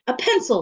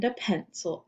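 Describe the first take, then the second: First: Loud, high-pitched snap; snapped correction. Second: Said in the usual way. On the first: A narrator's reading. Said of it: "snapped Missus Jules".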